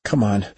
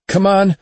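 First: Said in the usual way. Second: High, loud urgent plea; desperate shout. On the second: A narrator's reading. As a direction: yell it at the drones. Urging, second time louder.

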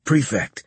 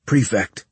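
First: Prefect called higher, more urgently; insistent address. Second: Politely calling Prefect at a normal pitch; a courteous bid for attention on Prefect; polite address. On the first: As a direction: press harder on Prefect, pitched up. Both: Acted. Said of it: "trying to politely gain the creature's attention".

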